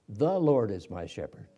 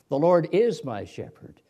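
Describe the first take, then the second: First: The stress is on the word the. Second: The stress is on the word is.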